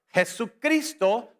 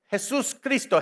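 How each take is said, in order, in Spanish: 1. Una palabra, con la s antes de cristo omitida. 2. Dos palabras, con la s antes de cristo mantenida. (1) "solamente para no tener choque de los consonantes" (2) "No puedes decir consonante, consonante. Jesús Cristo diez veces rápido te va a trabar la lengua"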